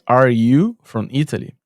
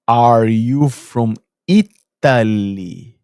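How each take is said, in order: First: Said in the usual way. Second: Imitating her loud, very drawn-out question; slow, loud questioning. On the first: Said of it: "a pergunta é". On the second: Neighbour guessing the foreigner's country, slow and loud. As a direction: stretch each word out loudly for a foreigner. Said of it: "Aí ela fez assim".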